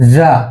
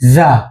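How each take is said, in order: Both takes have the same delivery.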